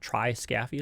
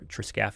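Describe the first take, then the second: First: It is said part by part, as spelled. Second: It is said run together, as usually spoken. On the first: This shows how the word is built. "is kind of how it's, that word is structured" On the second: This is the usual spoken form. "is how we pronounce it"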